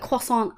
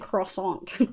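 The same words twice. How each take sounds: First: The word is said with a French pronunciation. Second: The word is said with an English pronunciation. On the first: "the way you're supposed to pronounce it" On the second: "Why aren't you saying croissant?"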